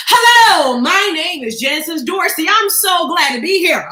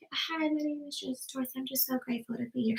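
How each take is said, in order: First: Slow, louder, projected introduction; confident introduction. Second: Tiny, soft, timid introduction; church mouse voice. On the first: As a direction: project to the back of the room. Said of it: "you've gotta be confident". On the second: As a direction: shrink into a meek little voice. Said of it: "a church mouse voice". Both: Shown as a demonstration.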